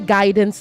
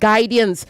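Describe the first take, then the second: First: No extra vowel follows the d sound. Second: An extra vowel follows the d sound. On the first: The speaker calls it right. "After D, there's no I" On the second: The speaker calls it wrong. "not guidance"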